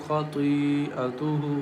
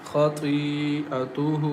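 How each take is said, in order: Both takes have the same delivery.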